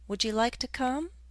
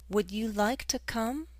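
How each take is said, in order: First: Would you is run together as wouldja. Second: Would you is said as two clear words.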